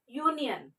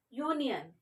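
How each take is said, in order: Both takes have the same delivery.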